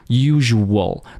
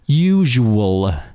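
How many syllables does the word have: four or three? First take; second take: three; four. First: The word is said in three syllables. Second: The word is said in four syllables. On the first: "就变成了三个音节usual" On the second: "有些比较夸张的读法会把它读成四个音节"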